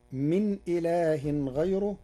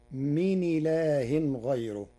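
First: Said in the usual way. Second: "من إله" run together as mini-laah, no glottal stop; "من إله غيره" linked, hamza dropped as mi-ni-laahin; hamza vowel transferred. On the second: Shown as a demonstration. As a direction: slide the n of "من" straight into i of "إله". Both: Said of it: "بنقل حركة الهمز إلى الساكن قبله".

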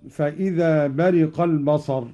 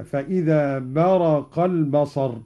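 First: Said in the usual way. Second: "برق" said baraqa, with a after the r; Qalun's reading, short a in "برق"; fatha on the ra. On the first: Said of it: "قرأ قالون بفتح الراء هكذا". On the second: Shown as a demonstration. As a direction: slowly recite "برق" as baraqa, not bariqa. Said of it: "بفتح الراء هكذا".

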